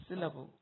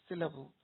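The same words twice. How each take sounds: The two takes are said the same way.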